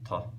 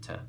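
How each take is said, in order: First: The t is pharyngealized, with a darker back quality. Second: The t is ejective, with a sharp popping release. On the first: "pharyngeals or velarized consonants" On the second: "I would say they're pronounced as ejectives"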